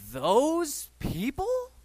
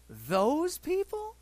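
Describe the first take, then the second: First: Slow, high scornful those people; disdainful. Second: Disdainful. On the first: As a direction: drag it out with disgust. Mocking critics' disdain. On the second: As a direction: repeat it, even more incredulous. Repeats with disdain. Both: Retold or imitated.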